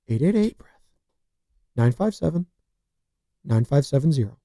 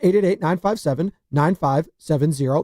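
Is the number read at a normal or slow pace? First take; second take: slow; normal. First: The number is read slowly and deliberately. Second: The number is read at a normal pace.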